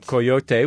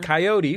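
First: It is said with a Spanish pronunciation. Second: It is said with a standard American pronunciation. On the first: "the proper Spanish pronunciation" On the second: "the American pronunciation"

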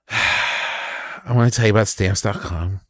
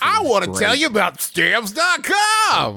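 First: It is said flatly, with little energy. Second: It is said with lively, enthusiastic energy. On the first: The speaker calls it wrong. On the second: The speaker calls it right.

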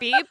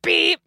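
First: The beep is said softly and gently. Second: The beep is said loudly and harshly.

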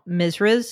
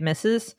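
First: The word is said with an R sound. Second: The word is said without an R sound. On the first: The speaker calls it wrong. "I used to call my teachers that were female Misras" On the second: The speaker calls it right. "instead of MRS period Mrs"

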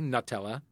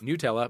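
First: Nutella is pronounced the way British people say it. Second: Nutella is pronounced the way Ferrero recommends.

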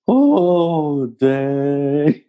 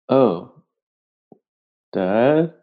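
First: It is said warmly, with love. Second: It is said in a shocked, disgusted tone.

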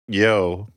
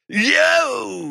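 First: It is said in a plain, ordinary voice. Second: It is said wild and growly, like a dog.

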